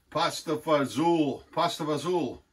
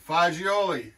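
First: "pasta fazool" said slowly the Italian-American way, fah-ZOOL; drawn-out "pasta fazool", fah-ZOOL; American "fazool" pronunciation. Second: "fagioli" said the Italian way, fah-JOH-lee, all the syllables kept; careful Italian "fagioli", fah-JOH-lee, stress on JOH; proper Italian pronunciation. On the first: Retold or imitated. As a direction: imitate the American clipped "fazool", fah-ZOOL, no final vowel. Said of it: "they can't pronounce it properly". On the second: Shown as a demonstration. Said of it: "That's how they really say it in, in Italy".

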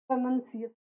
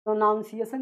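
First: प्रोनंसिएशन with "nun" in the middle; short vowel in the नं of प्रोनंसिएशन; correct pronunciation. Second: प्रोनाउंसिएशन with "noun" in the middle; quick प्रोनाउंसिएशन with an "ow" vowel; mistaken pronunciation. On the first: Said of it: "प्रोनाउंसिएशन नहीं होता है". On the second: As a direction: say प्रोनाउंसिएशन the wrong way, pro-noun-. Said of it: "नहीं होता है". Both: Shown as a demonstration.

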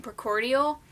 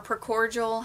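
First: "precordial" with a full "-dee-al" ending; first pronunciation variant. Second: "precordial" with the ending run together as "-jul"; alternative pronunciation. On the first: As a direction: say "precordial" carefully, keeping the d. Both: Shown as a demonstration. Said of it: "however you wanna pronounce it".

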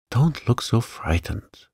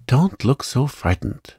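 First: A hint of fretful concern; understated worried reassurance. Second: A mild exclaim, higher; lightly raised, impatient reassurance; understated exclamation. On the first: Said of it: "he said in a worried voice". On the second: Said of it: "he exclaimed". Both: A narrator's reading.

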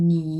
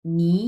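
First: নি in a low, dipping third tone. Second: নি climbing from bottom to top; second-tone নি. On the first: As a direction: demonstrate নি as Mandarin tone three. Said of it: "আমি তিন number tone উচ্চারণ করলাম". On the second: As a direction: lift নি as a rising Mandarin tone two. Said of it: "নিচ থেকে উপরের দিকে উঠবে". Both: Shown as a demonstration.

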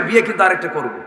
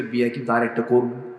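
First: Mock threat, starting high and loud; raised-voice mimicry of a husband's threat; retold threat. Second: Understated mock threat; retold threat. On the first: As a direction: imitate a blustering husband, falling away at the end. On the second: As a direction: mimic an offhand threat in an everyday voice. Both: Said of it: "হুমকি মারে".

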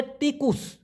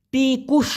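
First: তিকুস with soft dental ত; Malay pronunciation. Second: টিকুস with hard retroflex ট; Bangla-style pronunciation. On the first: Teacher showing Malay তিকুস against Bangla. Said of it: "ওরা উচ্চারণ করো তয়ের মতো". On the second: Teacher contrasting Bangla টিকুস with Malay. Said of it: "বাংলাদেশের ভাষায় যদি আমরা উচ্চারণ করতাম". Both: Shown as a demonstration.

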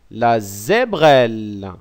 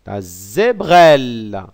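First: La zébrelle said slowly, each syllable zé-brelle spelled out clearly; slow careful repeat. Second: Said in the usual way. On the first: Shown as a demonstration. Teacher repeating the new word slowly so pupils can copy it. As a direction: stretch out la zébrelle syllable by syllable for learners. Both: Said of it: "On dit".

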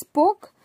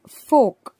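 First: "poke" said pok, the wrong way; "poke" like pork. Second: "folk" is fork with a clear r-less o; fork, not poke. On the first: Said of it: "If you read it as poke". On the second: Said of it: "not poke". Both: Shown as a demonstration.

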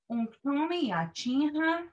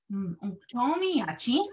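First: "Unktomi yachin ha" slowly, swooping high, then levelling on "ha"; demonstrated correct intonation. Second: "unktomi yachin" drawn out with a steep rise at the end; wrong question intonation. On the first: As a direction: model it slowly, holding "ha" rather than flicking it up. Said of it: "and that this is right". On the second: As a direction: exaggerate the wrong upturn on "yachin". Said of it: "point out that this is wrong". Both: Shown as a demonstration.

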